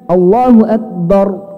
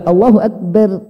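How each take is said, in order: First: The r is pronounced heavy and thick. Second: The r is pronounced light and thin. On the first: The speaker calls it right. "Tebal. Jadi bunyinya Allahu akbar" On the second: The speaker calls it wrong. "Enggak Allahu akbar, enggak"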